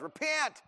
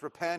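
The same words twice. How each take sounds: First: The word is said in a Southern American accent. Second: The word is said in a plain, neutral accent. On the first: "generally it's spoken with a southern accent. ... it's always repent" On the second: "it's not really just repent"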